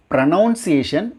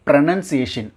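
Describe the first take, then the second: First: Pronunciation as pro-NOUN-see-ay-shun; mispronounced pronunciation. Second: Pronunciation as pro-NUN-see-ay-shun; correct pronunciation. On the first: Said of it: "not pronunciation". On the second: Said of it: "it's pronunciation". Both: Shown as a demonstration.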